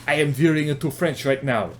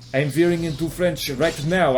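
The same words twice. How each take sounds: First: Put-on German accent sliding towards French; German accent turning French. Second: Put-on German accent gone French; French-tinged accent. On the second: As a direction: slip further into a mock French accent. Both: Shown as a demonstration.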